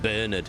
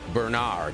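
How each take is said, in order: First: The name is said in a British way. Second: The name is said in an American way. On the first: "we in the U K, we pronounce it Bernard" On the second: "In America, you'd pronounce it Bernard"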